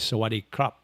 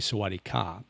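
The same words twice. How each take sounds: First: Sawatdee khrap with the rising khrap ending; Thai male greeting. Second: Sawatdee kha with a falling ค่ะ at the end; Thai female greeting. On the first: Vlogger teaching viewers the male hello, Thai pronunciation. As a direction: say สวัสดีครับ the male way, krap at the end. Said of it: "if you're a male and you wanna say hello". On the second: Vlogger teaching viewers the female hello, Thai pronunciation. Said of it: "If you're female, you would say". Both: Shown as a demonstration.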